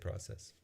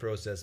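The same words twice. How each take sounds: First: It is said with an American pronunciation. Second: It is said with a Canadian pronunciation. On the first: "most Americans say process" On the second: "Most Canadians say process"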